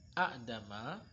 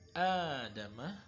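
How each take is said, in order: First: A glottal stop follows the short first vowel. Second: The first vowel is lengthened with no stop. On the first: The speaker calls it wrong. "daripada kita mengucapkan a'dama" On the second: The speaker calls it right. "lebih mudah diucapkan adama"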